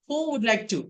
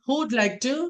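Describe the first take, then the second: First: Who and would are said as two full words. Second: Who and would merge into one syllable, who'd.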